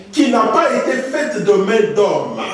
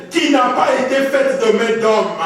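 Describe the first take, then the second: Both takes have the same delivery.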